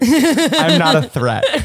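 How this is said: It is said with a smile in the voice. The speaker comes across as harmless. The speaker calls it right. "while smiling"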